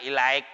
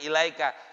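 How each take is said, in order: First: The word ends abruptly on a consonant. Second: The word ends with a final vowel sound. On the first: The speaker calls it wrong. "kadang ilaik, ilaik, apaan begitu" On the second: The speaker calls it right. "Sebenarnya ilaika"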